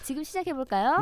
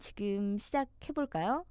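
First: It is said brightly, in an upbeat announcer tone. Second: It is said in a plain, less lively way.

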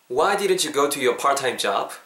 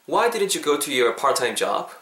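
No difference in how they are said.

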